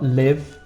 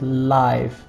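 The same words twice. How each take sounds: First: The vowel sounds like 'ih'. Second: The vowel sounds like 'eye'. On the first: The speaker calls it wrong. "not live" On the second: The speaker calls it right. "Notice the pronunciation of this is live"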